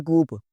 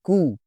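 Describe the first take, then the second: First: "कूप" closing on a P; P sounded. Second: "कू" ending on the vowel; silent P. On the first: Teacher showing the mistake, P sounded. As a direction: voice the final P in "कूप". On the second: Teacher on the takeover word, P silent. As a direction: drop the final P, "कू". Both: Shown as a demonstration. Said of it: "it's not कूप".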